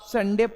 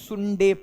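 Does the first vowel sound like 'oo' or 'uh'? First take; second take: uh; oo. First: The first vowel is an open 'uh' sound. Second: The first vowel is a rounded 'oo' sound. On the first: The speaker calls it right. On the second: The speaker calls it wrong.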